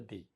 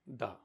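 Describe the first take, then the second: First: The word ends in a long 'ee' vowel. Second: The word ends in a short 'uh' vowel. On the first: The next word starts with a vowel. "वॉवेल letter होंगे तो दी" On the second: The next word starts with a consonant. "कॉन्सोनेंट है तो इनको उच्चारण करेंगे द"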